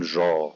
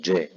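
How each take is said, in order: First: جا with a soft ʒ; wrong soft jeem. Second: جا with a crisp dj affricate; correct jeem. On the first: Teacher showing the wrong soft جا. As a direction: say جا with a French-style zh, as an error. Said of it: "ما ينفعش أقول جا". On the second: Teacher giving the correct Quranic جا. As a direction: say جا firmly as dj. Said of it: "ولكن أقول جا". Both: Shown as a demonstration.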